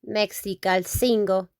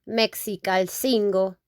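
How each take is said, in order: No difference in how they are said.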